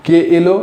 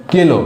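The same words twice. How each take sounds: First: কে এলো said as two clear separate words; careful কে এলো with a break between the words; full form. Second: কে এলো run together into কেলো; rushed কেলো, the vowels merged; fast slurred form. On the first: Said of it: "আমরা বলি". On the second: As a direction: squash কে এলো into one quick কেলো. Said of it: "তাড়াতাড়ি উচ্চারণের জন্য". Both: Shown as a demonstration.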